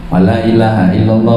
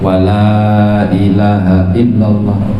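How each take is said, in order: First: The vowel in 'la' is clipped short. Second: The vowel in 'la' is drawn out long. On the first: It seems to affirm a god other than Allah. The speaker calls it wrong. "kalau dibaca pendek, ... itu pendek tuh" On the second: It denies that any god exists except Allah. The speaker calls it right. "panjangi la-nya lah"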